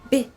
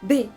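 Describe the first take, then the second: The two takes are said the same way.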